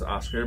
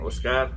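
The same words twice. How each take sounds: First: The name is said with an English accent. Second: The name is said with a Spanish accent.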